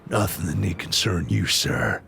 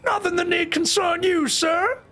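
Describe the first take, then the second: First: Low, composed character voice; deep, restrained delivery; voice option one. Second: Very high, squeaky character voice; comic squeaky delivery; voice option two. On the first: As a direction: keep it deep, falling on sir. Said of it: "I'll give you voice one". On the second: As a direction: pitch it way up high. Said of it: "I'll give you voice two". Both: Shown as a demonstration.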